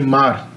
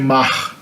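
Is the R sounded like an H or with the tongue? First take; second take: tongue; like H. First: The R is made with the tongue. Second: The R sounds like an H. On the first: "I would say mar. Okay, the, the R would be in the tongue" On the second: "people from Rio would say mach"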